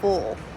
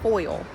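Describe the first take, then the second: First: The vowel is a plain short u sound. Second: The vowel glides like oy. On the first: The speaker calls it wrong. "but they said full" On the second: The speaker calls it right. "Next time we're gonna be more enunciate our words better"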